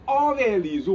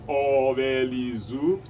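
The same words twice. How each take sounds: First: The first syllable has a high tone. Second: The first syllable has a low tone. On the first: Before he or she goes, tell me. "with a high tone" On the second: Before you go, tell me. "use the word O with a low tone"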